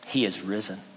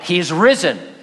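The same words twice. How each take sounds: First: It is said at a normal speaking volume. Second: It is shouted loudly.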